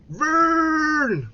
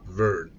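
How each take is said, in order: First: Verne! shouted high, English style, like vurn; English pronunciation of Verne. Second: Said in the usual way. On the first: Retold or imitated. Streamer mocks how the English said the name, high loud cry. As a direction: bellow Verne! the way English speakers say it, much higher and louder. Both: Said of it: "C'est comme ça qu'ils disaient les Anglais".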